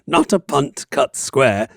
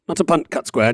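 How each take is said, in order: First: It is said at a steady, slower pace. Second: It is said at a quicker pace.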